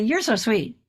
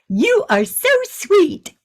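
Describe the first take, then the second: First: The words are contracted and run together. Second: Each word is pronounced clearly and separately.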